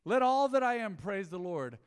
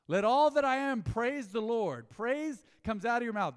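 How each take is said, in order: First: Loud, higher, ringing verse; proclaimed scripture. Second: Loud, higher, slow, every word weighted; slow emphatic proclaiming. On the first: Pastor reading the psalm aloud to the church, ringing. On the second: Pastor repeating the psalm to drive it home, slow and loud. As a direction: lean on each word, slowly. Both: Real, not acted.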